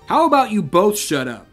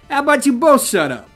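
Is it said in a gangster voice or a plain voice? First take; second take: plain voice; gangster voice. First: It is said in a plain voice. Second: It is said in a gangster voice.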